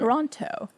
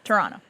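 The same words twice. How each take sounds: First: The second T is clearly pronounced. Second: The second T is dropped and silent. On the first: The speaker is not from the city. The speaker calls it wrong. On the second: The speaker is from the city. The speaker calls it right. "The second T is not pronounced"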